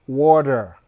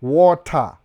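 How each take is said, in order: First: "water" as waw-der, American style. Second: "Water" loud, in two parts, waw-TAH; crisp T. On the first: Teaching viewers the American way, "water" with a D. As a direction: soften the t in "water" to a d. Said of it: "So, hiyo da". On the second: Showing viewers the spelt form first, "Water" with hard T. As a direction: sound the t fully in "Water". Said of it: "weka D kwa hiyo T". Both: Shown as a demonstration.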